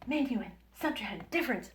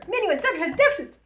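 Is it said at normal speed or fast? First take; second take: normal; fast. First: It is said at a normal speed. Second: It is said quickly.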